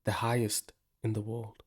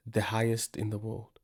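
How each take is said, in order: Both takes have the same delivery.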